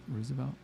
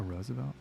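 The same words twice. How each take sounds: First: "Roosevelt" with an "oo" first vowel; ROOZ pronunciation. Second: "Roosevelt" opening like the flower rose; ROSE pronunciation. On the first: Vlogger comparing street name readings, "Roosevelt" as ROO-zuh-velt. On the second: Vlogger weighing up the street name, "Roosevelt" as ROH-zuh-velt. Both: Shown as a demonstration. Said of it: "depending on how you wanna pronounce it".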